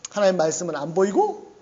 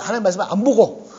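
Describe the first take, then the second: First: Said in the usual way. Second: Louder, quicker correction landing on '안 보고'. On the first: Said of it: "안 보이는 게 아니라". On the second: Shown as a demonstration. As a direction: hit '안 보고' hard as the corrected word. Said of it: "안 보이는 게 아니라 하나님 말씀은 안 보고". ('안 보고'를 힘주어 크게 강조)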